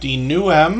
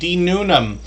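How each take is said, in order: First: The name has no n sound before 'ham'. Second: The name has an n sound before 'ham'. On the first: The speaker calls it wrong. "I've been mispronouncing that name" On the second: The speaker calls it right. "or pardon me"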